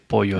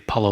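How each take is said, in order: First: The double L is said as a Y sound. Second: The double L is said as an L sound. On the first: The speaker calls it right. "You say Pollo Loco" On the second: The speaker calls it wrong. "You don't say Palo Loco"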